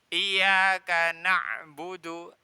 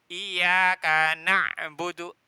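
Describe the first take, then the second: No difference in how they are said.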